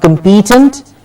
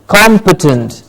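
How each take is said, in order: First: "competent" as kum-PEE-tent, rising; rising "competent" with a long middle vowel; wrong stress. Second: "competent" as COM-puh-tunt, falling; falling "competent" with an open first vowel; correct stress. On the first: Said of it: "Not competent". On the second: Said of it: "but competent". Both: Shown as a demonstration.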